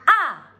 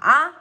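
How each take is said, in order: First: It is said with the fourth tone. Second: It is said with the third tone. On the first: "Nada keempat" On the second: "Nada ketiga"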